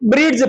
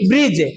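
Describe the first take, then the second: First: A d sound is clearly said before the end. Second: No d sound is said before the end. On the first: The speaker calls it wrong. "हमेशा अपन क्या पढ़ते हैं, ब्रिड्ज पढ़ते हैं" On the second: The speaker calls it right. "डी क्या रह गया, silent"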